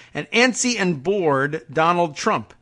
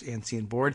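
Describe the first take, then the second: First: Antsy and bored said slowly, stressed; ANTSY and BORED, slow and pointed; stress the quote. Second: Said in the usual way. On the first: Shown as a demonstration. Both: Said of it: "and that's in quotes".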